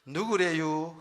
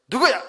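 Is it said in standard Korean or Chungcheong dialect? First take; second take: Chungcheong; standard. First: It is said in Chungcheong dialect. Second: It is said in standard Korean.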